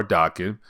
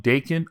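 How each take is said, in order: First: "Daken" pronounced DAH-ken; alternative pronunciation. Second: "Daken" pronounced DAY-ken; first pronunciation. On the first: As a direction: open the first vowel of "Daken" to AH. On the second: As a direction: give "Daken" a long AY in the first syllable. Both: Shown as a demonstration. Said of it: "however you want to pronounce it".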